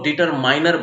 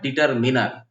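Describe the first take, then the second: First: The third syllable has a long 'eye' sound. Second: The third syllable has a short 'i' sound. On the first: The speaker calls it wrong. "लोग डिटरमाइनर बोल जाते हैं, डिटरमाइनर नहीं होता है" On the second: The speaker calls it right. "इसका सही उच्चारण होता है डिटरमिनर"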